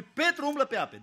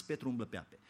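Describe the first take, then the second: First: „Petru umblă pe ape” proclaimed much higher; triumphant proclamation. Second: „Petru umblă pe ape” said softly, low; quiet wonder. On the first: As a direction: lift „Petru” high and proclaim it. („Petru umblă pe ape” proclamat sus) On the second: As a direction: hush it, almost in awe. („Petru umblă pe ape” spus încet) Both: Shown as a demonstration. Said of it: "Câtă vreme privește la Hristos".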